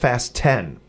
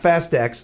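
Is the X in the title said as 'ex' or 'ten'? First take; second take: ten; ex. First: The X is said as the number ten. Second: The X is said as the letter ex. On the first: The speaker calls it right. "It's pronounced Fast 10" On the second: The speaker calls it wrong. "It's not Fast X"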